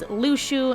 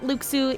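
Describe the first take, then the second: First: The middle consonant is an sh sound. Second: The middle consonant is a ks sound. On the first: The speaker calls it right. "it is Lushu" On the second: The speaker calls it wrong. "It is not Luxu"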